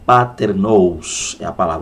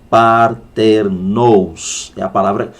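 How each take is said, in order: First: The phrase is spoken at a normal pace. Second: The phrase is spoken slowly and deliberately.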